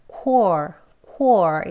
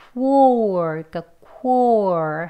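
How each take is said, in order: First: "core" as plain kor, no w after the k; W left out. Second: "core" as kwor, a w glide after the k. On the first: Teacher showing the easier way, "core" without the w. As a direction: go straight from k into or in "core". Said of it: "이 W 소리를 내지 않고요". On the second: Teacher showing what is hard, "core" laboured with a w. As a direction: stretch "core" slowly through a w into or. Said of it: "여기 우 소리가 들어있어서". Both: Shown as a demonstration.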